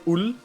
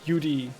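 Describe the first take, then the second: First: The syllable ends with an L sound. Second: The syllable ends with a D sound. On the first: The speaker calls it wrong. "You don't say ul" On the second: The speaker calls it right. "You say ud, with a d"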